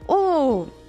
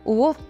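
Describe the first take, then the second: First: The sound is at a high pitch. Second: The sound is at a low pitch. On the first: "and then little more high" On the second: "from low tone"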